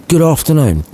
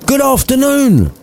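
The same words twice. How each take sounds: First: Dismissive. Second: Sharp, high angry dismissal. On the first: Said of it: "Scrooge added dismissively". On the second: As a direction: bark it out, fed up. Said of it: "much more pissed off". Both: Acted.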